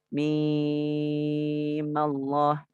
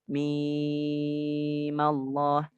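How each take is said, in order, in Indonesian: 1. Vokal pada mim dibaca panjang, enam harakat. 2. Vokal pada mim dibaca panjang, enam harakat.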